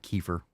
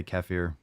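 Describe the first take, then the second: First: "kefir" said KEE-fer; disliked pronunciation. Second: "kefir" said keh-FEER; preferred pronunciation. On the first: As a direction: say "kefir" with a long ee first, ending in -fer. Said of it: "I don't like". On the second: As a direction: say "kefir" with a short first vowel and long ee at the end. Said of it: "I tend to say". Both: Shown as a demonstration.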